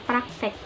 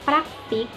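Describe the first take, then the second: First: The last vowel sounds like 'eh'. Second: The last vowel sounds like 'ee'. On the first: The speaker calls it right. "yang benar adalah praktek menggunakan huruf E, bukan I" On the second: The speaker calls it wrong. "itu salah"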